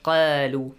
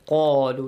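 First: The first sound is light and thin. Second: The first sound is heavy and full. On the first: The speaker calls it wrong. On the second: The speaker calls it right. "قَا has a light sound or heavy sound? Heavy sound"

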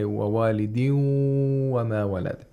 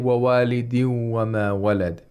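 First: The waw is held with a nasal sound. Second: The waw is said plainly without nasal sound. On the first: The speaker calls it right. "We hold the waw nasally. ... We say" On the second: The speaker calls it wrong. "So we don't say"

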